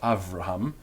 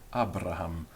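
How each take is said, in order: First: The second consonant is pronounced as v. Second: The second consonant is pronounced as b. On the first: This is the other common pronunciation. "not Avraham" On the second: This is an ancient pronunciation. "B, Abraham"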